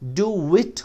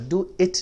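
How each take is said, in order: First: A w sound links do to it. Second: No w sound links do to it. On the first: The speaker calls it right. "डू विट होगा" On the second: The speaker calls it wrong. "नहीं होगा"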